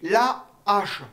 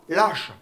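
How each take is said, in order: First: The vowel of la is kept before hache. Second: The vowel of la is dropped and linked. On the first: The speaker calls it right. "le H de H est aspiré. On dit la H" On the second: The speaker calls it wrong. "on dit pas lâche"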